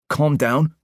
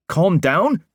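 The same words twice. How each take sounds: First: Higher, disbelieving calm down with a rising tune; incredulous echo. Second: Higher and louder again, calm down near a screech. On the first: Parker repeats Will's calm down in disbelief. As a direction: throw the words back, rising. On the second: Parker screeches calm down back at Will, losing control. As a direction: spiral up into a screech. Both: Acted. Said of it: "was practically screeching now".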